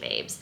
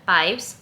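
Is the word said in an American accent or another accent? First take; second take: American; other. First: It is said in an American accent. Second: It is said in a non-American accent. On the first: The speaker calls it wrong. "I said it in an American accent" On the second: The speaker calls it right. "I meant babes"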